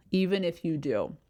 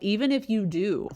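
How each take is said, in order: First: "do" falling firmly at the end; lower intonation. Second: "do" lifted, left hanging; high ending. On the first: Coach showing how to sound confident, falling ending. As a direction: drop the pitch on "do" to close it. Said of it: "ends on a lower intonation". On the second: Coach showing an ending that undermines confidence, raised ending. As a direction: let "do" rise as if unsure. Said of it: "ending on a high note". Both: Shown as a demonstration.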